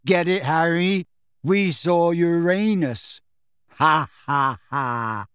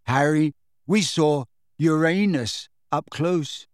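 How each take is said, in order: First: Slow, stretched-out punchline with forced ha-has; giggling feebly. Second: Slow, dazed delivery with gaps; giggling feebly. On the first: Dazed boy repeats his joke, giddy and insistent. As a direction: hammer the silly joke home, drawing out Uranus. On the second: Dazed boy tells his friend a joke, feebly giddy. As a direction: share a silly joke in a woozy state. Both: A narrator's reading. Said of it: "still giggling feebly".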